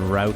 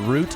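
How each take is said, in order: First: It is said with an American pronunciation. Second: It is said with a British or Canadian pronunciation. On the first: "route is American" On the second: "root is Canadian or British"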